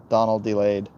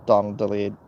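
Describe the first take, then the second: No difference in how they are said.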